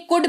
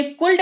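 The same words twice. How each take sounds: First: कुड with no L sound; correct silent L. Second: कुल्ड with the L sounded; wrong pronunciation. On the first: Teacher showing the silent L in कुड. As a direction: say कुड, vowel straight into D. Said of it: "कुड पढ़ा जाता है". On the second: Teacher showing the mistake, कुल्ड with L voiced. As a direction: say कुल्ड with L before D. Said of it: "कुल्ड नहीं कुड पढ़ा जाता है". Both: Shown as a demonstration.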